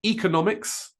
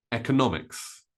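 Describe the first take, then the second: First: Economics as EE-kuh-NOM-iks; long E. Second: Economics as EK-uh-NOM-iks; short E. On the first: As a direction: open economics with ee, stress NOM. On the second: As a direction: open economics with eh, stress NOM. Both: Shown as a demonstration. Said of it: "Both E and E are correct".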